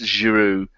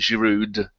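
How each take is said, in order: First: The name ends in an oo sound, no d. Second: The name ends with a sounded d. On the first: The speaker calls it right. "It's Giroud" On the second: The speaker calls it wrong. "stop calling him Giroud"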